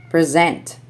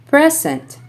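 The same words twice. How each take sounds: First: PreZENT, stressed on the second syllable; short pre, strong SENT in present; verb stress. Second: PREZ-ent, stressed on the first syllable; high PRE in Present, then drop; noun stress. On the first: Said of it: "verbs are stressed on the second syllable". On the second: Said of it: "nouns are stressed on the first syllable". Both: Shown as a demonstration.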